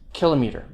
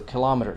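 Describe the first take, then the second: First: The main stress falls on the first syllable. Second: The main stress falls on the second syllable. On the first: "prefixes may take the main stress" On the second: "but also kilometer"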